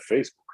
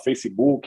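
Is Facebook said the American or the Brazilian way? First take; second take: American; Brazilian. First: Facebook is said with an American pronunciation. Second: Facebook is said with a Brazilian Portuguese pronunciation. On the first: "aí você vai lá para fora é Facebook" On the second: "Aqui no Brasil a gente fala Facebook"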